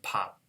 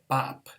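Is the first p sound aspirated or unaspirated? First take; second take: aspirated; unaspirated. First: The first p has a strong puff of air. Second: The first p has no puff of air. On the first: The speaker calls it right. "The first one is the aspirated one. The last P is this unreleased one" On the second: The speaker calls it wrong. "If I said it bop, bop ... I'm just mixing up the rule"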